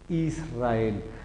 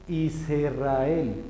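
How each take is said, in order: First: No vowel is heard after the s. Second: A short vowel is heard after the s. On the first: The speaker calls it right. "se lee Israel" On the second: The speaker calls it wrong. "yo no leo Israel"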